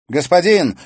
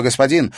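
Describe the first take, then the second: First: High loud call. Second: Urgent address. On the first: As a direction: call out to the master. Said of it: "воззвала юная ведьма". (громкий призыв) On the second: Witch addresses master again. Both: A narrator's reading.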